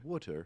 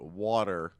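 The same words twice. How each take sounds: First: It is said with a British accent. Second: It is said with an American accent. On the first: "a British person" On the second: "when we call it water"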